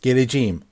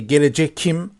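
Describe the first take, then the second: First: A soft g sound comes before the ending. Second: A hard k sound comes before the ending. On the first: The speaker calls it right. "we soft this K into soft G" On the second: The speaker calls it wrong. "we don't say gelecekim"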